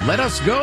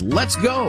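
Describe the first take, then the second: First: Let us is said as two full words. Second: Let us is contracted into one syllable. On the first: The speaker calls it wrong. "Imagine cheering for a team with" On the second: The speaker calls it right. "The runner-up is"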